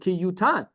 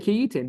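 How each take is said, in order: First: The word has a u vowel after y. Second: The word has an i vowel after y. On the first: This is how the word is traditionally read aloud. "the karinan ki yutan. We we read it differently" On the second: This is how the word is written in the text. "you would say ki yitain"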